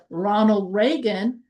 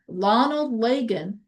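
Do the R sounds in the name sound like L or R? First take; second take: R; L. First: The R sounds are said as clear R. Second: The R sounds are said like L. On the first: The speaker calls it right. "instead of" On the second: The speaker calls it wrong. "the Chinese student who keeps saying"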